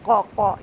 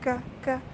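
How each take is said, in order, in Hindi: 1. व्यंजन भारी है और गले की गहराई से बनता है। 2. व्यंजन हल्का है, सांस बाहर निकलती है। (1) "ये आवाज़ ना आए" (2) "अब देखिए साथ में सांस जारी हो रहा है ना"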